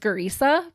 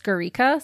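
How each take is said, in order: First: The middle consonant is an S sound. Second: The middle consonant is a K sound. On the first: A less common version the speaker heard. "I heard her name pronounced as Gurisa" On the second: The version most news reports use. "most news reports pronounced it as Gurika, so that's what I'm going with"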